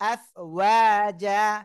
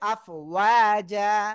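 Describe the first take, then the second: First: The word ends with a long 'a' vowel. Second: The same.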